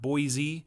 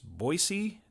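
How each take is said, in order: First: The middle consonant is a buzzing z sound. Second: The middle consonant is a hissing s sound. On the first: The speaker calls it wrong. "not Boise ... not a Z" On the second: The speaker calls it right. "it's Boise, ... So it's with an S"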